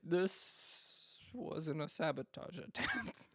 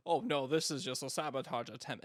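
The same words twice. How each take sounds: First: Slow, laughing through the mock admission; fan admitting it, laughing. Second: Lightly voiced fan brushing it off; a hint of a smug fan waving it away; dismissive fan. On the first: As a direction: drag it out, laughing at the fans. Mocking fans' later admission. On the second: Mocking fans' early excuses.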